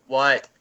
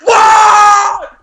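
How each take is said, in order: First: Softer, short reply; barely bothered answer at a two; low-volume answer. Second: Huge high screamed answer; as loud as possible. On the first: Son first answering mom's call, subdued reply. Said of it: "so I go from two to ten". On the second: Son yelling back at mom's second call, all-out shout. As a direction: blow up from two to ten. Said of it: "as loud as I possibly". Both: Retold or imitated.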